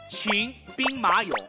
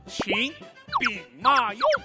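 First: It is said with standard Mandarin tones. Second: It is said with shifted Xi'an dialect tones.

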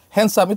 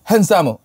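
First: Said in a plain English accent. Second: Said in a Japanese accent, like hansamu. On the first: "kayak handsome itu" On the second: "kalau di mereka jadi handsome"

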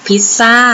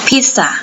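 First: The stress is on the last syllable. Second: The stress is on the first syllable. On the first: "บางคนออกเสียงว่า พิซซ่าซึ่งก็ไม่ผิดนะคะนั่นคือภาษาพูดของคนไทย" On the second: "ภาษาอังกฤษให้เราเน้นหนักที่พยางค์แรกนะคะ"

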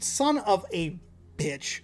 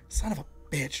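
First: It is said loudly. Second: It is said quietly. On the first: The speaker calls it wrong. "Not like that loud" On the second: The speaker calls it right. "but like"

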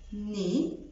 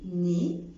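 First: The final consonant is silent. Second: The final consonant is silent.

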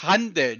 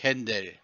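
First: The first vowel is an open 'a' sound. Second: The first vowel is an 'e'-like 'ä' sound. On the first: The speaker calls it right. "es heißt Handel" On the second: The speaker calls it wrong. "nicht Händel"

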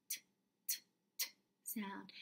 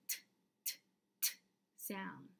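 Both takes have the same delivery.

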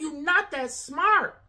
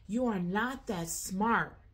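First: It is said heatedly and forcefully. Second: It is said calmly and more softly.

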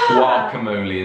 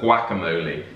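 First: The first vowel is a long 'ah' sound. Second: The first vowel is a short 'a' as in 'cat'. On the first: This is the American way of saying it. "Guacamole instead of" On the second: This is the British way of saying it. "instead of guacamole"

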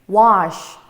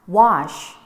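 No difference in how they are said.

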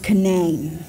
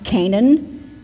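First: It is said the West Virginia way. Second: It is said the standard, non-West Virginia way.

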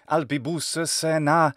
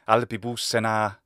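First: An extra short vowel separates the two S sounds. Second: The two S sounds join with no extra vowel. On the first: The speaker calls it wrong. "the extra schwa syllable being added between the two S's" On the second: The speaker calls it right. "instead of just saying albibus sena"

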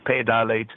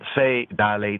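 First: The first word starts with a p sound. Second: The first word starts with an f sound. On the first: "Some enunciates Pe Dalet" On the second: "Enunciates Fe Dalet"

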